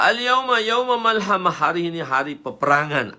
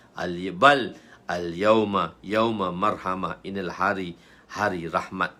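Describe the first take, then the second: First: Loud, high, ringing proclamation; battle cry. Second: Slow, measured, settled reply; merciful correction. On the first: Companion declares a day of war at Mecca, loud cry. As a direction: proclaim war at full voice, easing at the end. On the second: Prophet replies it is a day of mercy, measured calm. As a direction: answer steadily with no battle-cry pitch. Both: Acted.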